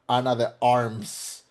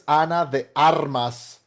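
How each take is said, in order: First: The surname is said the English way. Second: The surname is said the Spanish way. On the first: The speaker calls it wrong. "not Ana de Arms" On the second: The speaker calls it right. "her name is Ana de Armas"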